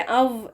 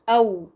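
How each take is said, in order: First: It ends in a v-like consonant. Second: It ends in a rounded w-like glide. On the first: The speaker calls it wrong. "ये अव नहीं है।" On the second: The speaker calls it right. "तो ये बन गया औ।"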